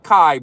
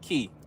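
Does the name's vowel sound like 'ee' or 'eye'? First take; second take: eye; ee. First: The name rhymes with 'eye'. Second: The name rhymes with 'see'. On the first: The speaker calls it wrong. "not Kai" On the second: The speaker calls it right. "but we pronounce it Key"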